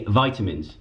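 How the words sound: It is said in an American accent. "in the U S they say vitamins"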